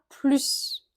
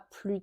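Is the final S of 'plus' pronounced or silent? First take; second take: pronounced; silent. First: The final S sound is pronounced. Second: The final S sound is silent. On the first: "avec le S qui est prononcé cette fois" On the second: "on ne prononce pas le S"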